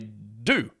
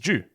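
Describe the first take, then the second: First: The word sounds just like 'do'. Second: The word sounds clearly different from 'do'. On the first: This is how Americans say it. "Americans say do" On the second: This is the speaker's own pronunciation. "That word that I say it as due"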